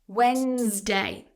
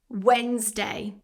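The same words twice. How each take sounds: First: The D is silent, with two syllables. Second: The same.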